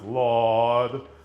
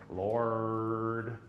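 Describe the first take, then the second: First: The R sound is dropped from the word. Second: The R sound is strong and drawn out. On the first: The speaker calls it right. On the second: The speaker calls it wrong.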